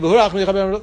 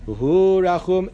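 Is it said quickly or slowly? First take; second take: quickly; slowly. First: It is said at a quick pace. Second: It is said slowly, drawn out.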